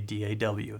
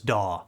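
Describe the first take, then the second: First: It is said as three separate letters. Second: It is said as one word, like 'daw'. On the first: "I like to say" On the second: "a lot of people just pronounce it as"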